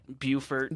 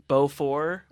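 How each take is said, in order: First: It is said with an Americanized pronunciation. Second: It is said with a French pronunciation.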